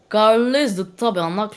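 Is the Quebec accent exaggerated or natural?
natural. The Quebec accent is calm and natural. The speaker calls it right. "parle normalement comme là, mais avec ton accent québécois"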